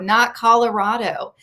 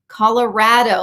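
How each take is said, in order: First: The stressed vowel does not sound like 'rad'. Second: The stressed vowel sounds like 'rad'. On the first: The speaker calls it wrong. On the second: The speaker calls it right. "like rad"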